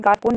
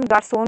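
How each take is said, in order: First: गार्पोन said with a hard "k" in the middle, as gar-kon; गार्पोन with the cedilla ignored, hard "k"; wrong pronunciation. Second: गार्सोन said with "s", like French garçon; correct pronunciation. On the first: Teacher warning students off the wrong reading, गार्पोन with "k". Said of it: "गार्पोन नहीं पढ़ेंगे". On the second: Teacher showing students the right reading, गार्सोन with "s". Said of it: "गार्सोन पढ़ेंगे". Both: Shown as a demonstration.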